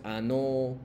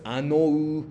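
First: Ano said slowly, no u sound at the end; final u silent. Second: Anou with the final u drawn out and sounded; wrong version, anou with a full final u; long u. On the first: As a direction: draw out ano but drop the final u. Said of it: "no pronuncia fuerte". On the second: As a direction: slowly say anou with a clear long u at the end. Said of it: "entonces no pronuncia fuerte". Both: Shown as a demonstration.

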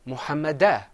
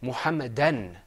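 First: "Muhammadah" ending on an open a, no n; "Muhammadah" without the final n; single fatha ending. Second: "Muhammadan" closing on an n sound; "Muhammadan" with tanween, ending an; double fatha ending. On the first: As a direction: say "Muhammadah" with an open last vowel. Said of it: "If there was one fatha". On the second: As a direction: say "Muhammadan" with a final n. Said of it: "that second fatha means we say". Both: Shown as a demonstration.

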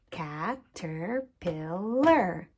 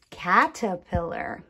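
First: "Caterpillar" slowly split into four beats; tapped syllables. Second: Said in the usual way. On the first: Shown as a demonstration. Teacher showing sound groups, "Caterpillar" slow, syllable by syllable. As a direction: say "Caterpillar" slowly as ca, ter, pil, lar. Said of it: "tap out the different sound groups". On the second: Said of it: "syllables are when I take a word".

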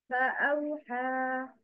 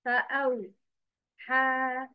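First: فأوحى said smoothly as one connected word; correct pronunciation. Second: فأوحى slowly broken up at the separated letters; wrong pronunciation. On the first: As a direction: link فأوحى with no gaps. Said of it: "listen and repeat after me the correct pronunciation". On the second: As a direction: drag فأوحى out with pauses between letters. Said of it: "But the wrong is". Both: Shown as a demonstration.

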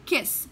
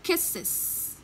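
First: "Kiss", one syllable, ending in a plain s; singular kiss. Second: "kisses" whispered, with two syllables, ending -iz. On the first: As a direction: say "Kiss" short, with a single hissed s at the end. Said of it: "khi phiên âm ra nó là kiss". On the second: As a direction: breathe out "kisses", with the -iz ending clear. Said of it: "Thì cô sẽ đọc nó là". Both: Shown as a demonstration.

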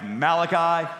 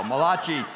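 First: Malachi said as MAL-uh-kye; correct pronunciation. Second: Malachi said as ma-LAH-chee; mock Italian pronunciation. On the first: Shown as a demonstration. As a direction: say Malachi with stressed MAL, ending like 'eye'. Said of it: "I think it's pronounced Malachi". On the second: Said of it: "the only Italian prophet in the Bible".

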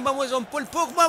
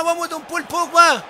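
First: Said in the usual way. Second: Shouted cheer, pitched up high. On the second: Real, not acted. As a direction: yell it out to cheer him on. Cheering on a player.

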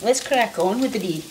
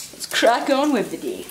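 First: Said in the usual way. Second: Put-on light Scottish accent, brisk; a hint of a Scottish accent. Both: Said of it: "say that in a Scottish accent".

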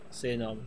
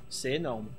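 Both takes have the same delivery.

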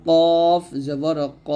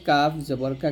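First: Slow "কফ" with thick, rounded "ক"; heavy letter. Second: Light "কা" with open aa; thin letter. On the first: Teacher contrasting letters for learners, "কফ" slow and heavy. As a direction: stretch "কফ", end on heavy "ক". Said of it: "কফটা মোটা করতে হবে". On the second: Teacher contrasting letters for learners, "কা" said thin. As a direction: say "কাফ" and "কা" thin, without rounding. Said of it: "কাফ পাতলা হয়". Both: Shown as a demonstration.

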